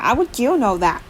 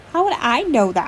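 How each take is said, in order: First: "you" lifted in pitch in "How would you know"; stress on YOU. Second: "I" lifted in pitch in "How would I know"; stress on I. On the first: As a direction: lean on the word "you", questioning. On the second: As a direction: lean on the word "I", questioning. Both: A narrator's reading. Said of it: "I asked my wood flat".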